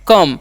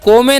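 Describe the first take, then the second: First: It is said as one syllable, 'kum'. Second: It is said as two syllables, 'ko-me'. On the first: The speaker calls it right. "ओ का उच्चारण अ करना है" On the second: The speaker calls it wrong. "इसे को में नहीं पढ़ना है"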